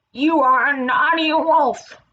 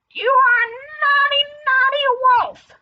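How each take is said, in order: First: Slow, louder, higher scolding; scolding turtle. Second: Very high, loud character scolding; angrier scolding turtle. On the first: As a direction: tell off a naughty child slowly. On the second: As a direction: squawk the telling-off high and loud. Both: Acted.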